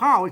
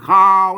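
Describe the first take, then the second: First: The word is said with a falling tone. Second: The word is said with a low tone. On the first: This is the standard pronunciation. "ข้าวข้าว เสียงโท" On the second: This is how the local dialect speakers say it. "เปิ้นก็ออกเป็นเสียงเอกเป็นข้าว"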